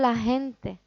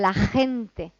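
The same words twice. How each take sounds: First: The J sound is articulated quickly and casually. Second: The J sound is articulated slowly and carefully. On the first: This is how it is said in everyday street speech. "cuando estoy en la calle" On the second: This is how it is said in class to beginners. "cuando estoy en clase en los niveles más bajos"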